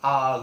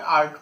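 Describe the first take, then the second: First: It is said with French pronunciation. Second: It is said with English pronunciation. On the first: "लेकिन फ्रेंच में उच्चारण इसका है आग" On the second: "इसको अपन इंग्लिश में आर्ट पढ़ते हैं"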